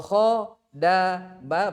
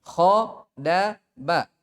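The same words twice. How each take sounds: First: "kho, da, ba" each vowel held two beats, higher; drawn-out "kho, da, ba" as the wrong way; stretched "kho, da, ba" to show two harakat; lengthened letters. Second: "kho, da, ba" clipped to one beat each; quick short "kho, da, ba"; one-harakat "kho, da, ba" as the correct way; short letters. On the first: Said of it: "berarti itu sudah apa? Sudah ada mat". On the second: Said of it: "Misalnya langsung". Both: Shown as a demonstration.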